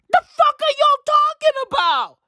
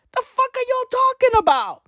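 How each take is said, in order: First: Higher, louder yelled disbelief; ranting at fans who gush, even louder; incredulous shout. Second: Higher, incredulous cry; what the hell are you on about; ranting at fans who gush; exasperated outburst. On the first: Repeated louder outburst. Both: Real, not acted.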